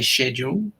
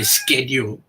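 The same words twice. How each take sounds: First: The word is pronounced the English way. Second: The word is pronounced the American way. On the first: "as an English speaker, we say schedule" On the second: "As a, an American speaker, they would say schedule"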